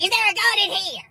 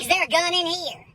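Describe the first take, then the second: First: Higher, more emphatic repeated demand; freaked-out bailiff, more insistent. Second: High, alarmed question; freaked-out bailiff. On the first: Bailiff pressing the old lady harder, mock panic. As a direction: imitate growing alarm, pushing the pitch right up. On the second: Bailiff questioning the old lady, mock alarm. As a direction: imitate an alarmed bailiff, pitch raised. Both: Retold or imitated. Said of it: "The bailiff starts freaking out".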